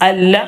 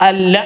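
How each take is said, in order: No difference in how they are said.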